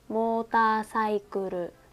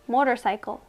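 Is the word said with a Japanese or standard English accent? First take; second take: Japanese; standard. First: It is said with a Japanese English accent. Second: It is said with a standard English accent. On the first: The speaker calls it wrong. "if I pronounce it in Japanese English" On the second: The speaker calls it right. "So I got a good score here"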